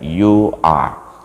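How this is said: The final R sound is dropped. "orang-orang Inggris itu mereka tidak pakai huruf R"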